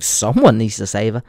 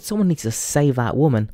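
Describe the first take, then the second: First: "Someone" punched and raised, meaning not me; stress on Someone. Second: Said in the usual way. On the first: Retold or imitated. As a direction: lean hard on "Someone". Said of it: "Obviously, I wasn't volunteering myself". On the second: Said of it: "I'm like".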